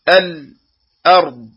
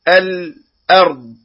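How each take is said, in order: First: The voice stops briefly on the l sound. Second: The same.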